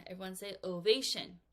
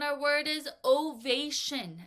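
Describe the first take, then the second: First: Said in the usual way. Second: Slow, stretched model word "ovation". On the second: Shown as a demonstration. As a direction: say "ovation" slowly and clearly for the class.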